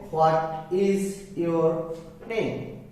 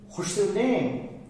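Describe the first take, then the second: First: Each word is said separately and fully. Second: The first words run together as 'what's'. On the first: "normally you will say" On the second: "if you wanna speak like with a native speaker"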